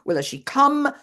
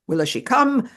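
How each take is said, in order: First: Higher still, come stressed, a touch distressed; fretful repeat, raised, come stressed; tearful and angry. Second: Higher, louder pleading, stress on come; fretful question, raised voice, come stressed; tearful and angry. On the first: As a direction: push up on come, near breaking. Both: Retold or imitated. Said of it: "Tearfully, but also angrily".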